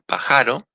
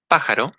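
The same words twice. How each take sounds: First: The stress is on the middle syllable. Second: The stress is on the first syllable.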